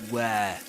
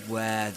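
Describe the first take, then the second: No difference in how they are said.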